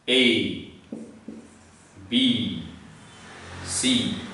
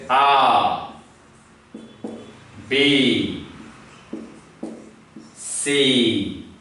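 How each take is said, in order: First: The letters are named with English pronunciation. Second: The letters are named with French pronunciation. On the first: "So this is" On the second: "but they call it as"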